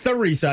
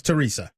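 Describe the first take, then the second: First: "Theresa" with a TH sound, not a T; soft TH in Theresa. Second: "Teresa" with a T sound, not TH; hard T in Teresa. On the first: Host corrects himself on the caller's town, Theresa with a soft TH. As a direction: say Theresa starting with TH as in thin. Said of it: "I thought it was Teresa". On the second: Host admits how he misread the town, Teresa with a hard T. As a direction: say Teresa starting with a plain T. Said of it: "I didn't realize it was Theresa". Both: Shown as a demonstration.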